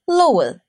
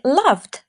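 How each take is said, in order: First: The word is pronounced the Danish way. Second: The word is pronounced the English way. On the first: "как в датском" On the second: "как в английском"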